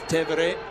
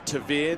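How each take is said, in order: First: The name is said with an Italian pronunciation. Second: The name is said with an Australian English pronunciation. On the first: This is how his family says it. "it's Tevere in Italian" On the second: This is how many local people say it. "the Australianisation"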